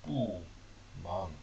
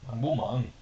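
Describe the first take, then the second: First: "bu" and "mang" split apart with pauses; syllable by syllable. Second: "mang bu mang" said smoothly in one breath; mang bu mang in Chinese. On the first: Teacher spells out "bu mang" for learners, one syllable at a time. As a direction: break "bu mang" into single slow syllables. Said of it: "So mang". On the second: Teacher models "mang bu mang" for learners, fluently. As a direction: run "mang bu mang" together as one phrase. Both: Shown as a demonstration.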